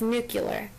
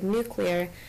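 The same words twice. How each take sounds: First: It is said as new-kyuh-ler. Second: It is said as new-klee-er. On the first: "the way he pronounced the word nuclear as nuclear" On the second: "the word nuclear"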